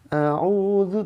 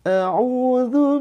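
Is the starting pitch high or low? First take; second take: low; high. First: It starts on a low pitch. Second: It starts on a higher pitch. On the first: The speaker calls it wrong. "nadanya itu terlalu rendah ... jangan a'udzu" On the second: The speaker calls it right. "lebih dinaikkan lagi ... Segini ya"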